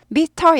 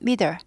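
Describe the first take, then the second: First: The middle t is fully pronounced. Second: The middle t is weakened and softened. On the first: "미터에서" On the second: "약화돼서 발음은"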